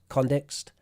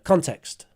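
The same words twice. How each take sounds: First: The t is softened into a d-like sound. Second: The t is said as a plain t. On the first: The speaker calls it wrong. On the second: The speaker calls it right.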